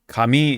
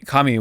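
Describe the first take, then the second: First: It uses the pitch pattern of the word 'paper'. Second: It uses the pitch pattern of the word 'God'. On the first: The word means paper. "that's paper" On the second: The word means God. "I think that's God"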